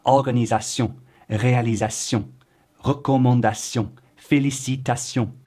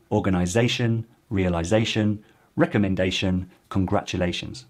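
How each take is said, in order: First: Organisation, réalisation, recommandation, félicitation said the French way with the weight on the final syllable; French end stress. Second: Organisation, realisation, recommendation, congratulations in English with the stress in the middle or at the start; plain English pronunciation with the -tion ending reduced. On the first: Teacher demonstrating French endings to learners, final syllable stressed. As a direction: put the weight on the last syllable, French style. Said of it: "particularly true with words ending in T I O N or sion".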